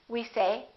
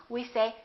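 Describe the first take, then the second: The two takes are said the same way.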